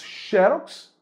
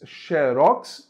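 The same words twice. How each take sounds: First: Xerox said XE-rox, first syllable stressed. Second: Xerox said xe-ROX, final syllable stressed; stress on last syllable. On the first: Teacher giving option one of two, xerox stressed on XE. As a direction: hit the XE of xerox, let rox drop. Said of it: "e acentua". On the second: Teacher giving option two, xerox stressed on ROX. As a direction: hit the ROX at the end of xerox. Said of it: "e não acentua". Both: Shown as a demonstration.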